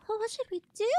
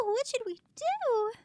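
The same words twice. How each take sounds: First: High tiny creature voice; squeaky minion voice. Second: High tiny creature voice, falling end; little minion asks, worried; squeaky minion voice. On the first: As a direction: voice a little minion. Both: Acted. Voicing small minion.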